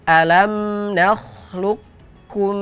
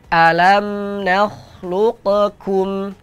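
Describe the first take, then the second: First: The q sound is merged into the k. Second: The q sound is bounced before the k. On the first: The speaker calls it right. "Bacaan yang benarnya" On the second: The speaker calls it wrong. "Huruf qafnya dipantulkan. ... Ini contoh bacaan yang keliru"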